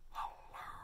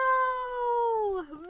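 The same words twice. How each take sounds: First: It is said quietly. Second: It is said loudly.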